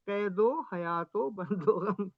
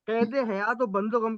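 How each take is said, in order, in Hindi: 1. शब्दों को पूरे में 'o' की कड़ियों से जोड़ा गया है। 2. शब्दों को 'e' की कड़ी से जोड़ा गया है। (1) "उसका कैदो हयातो बंदो गम" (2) "के बजाय"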